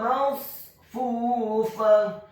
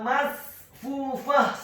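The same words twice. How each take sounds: First: The s sound is thick and emphatic. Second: The s sound is thin, with open lips. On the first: The speaker calls it right. "Yang benar adalah masfufah" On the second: The speaker calls it wrong. "bukan masfufah, salah"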